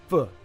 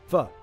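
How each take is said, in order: Both takes have the same delivery.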